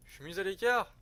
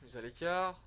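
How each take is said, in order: First: Louder, higher hammed-up indignation over "écart"; mock offended. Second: Said in the usual way. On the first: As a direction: play it as wounded pride, half-joking. Mock offended at being sidelined.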